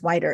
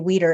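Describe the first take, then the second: First: The first vowel sounds like 'eye'. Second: The first vowel sounds like 'ee'. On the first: The speaker calls it right. "and it's Wider" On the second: The speaker calls it wrong. "I keep wanting to say Weeder"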